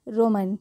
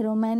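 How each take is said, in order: First: रोमन with a short 'mun' ending; correct pronunciation demo. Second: रोमैन with an open 'man' ending; mispronunciation demo. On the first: Teacher correcting for learners, रोमन ending in 'mun'. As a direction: keep the last vowel of रोमन a schwa. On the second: Teacher rejecting a form, रोमैन with 'ae' in the last syllable. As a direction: say रोमैन wrongly as 'ro-man', like the English word man. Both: Shown as a demonstration. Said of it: "रोमैन नहीं".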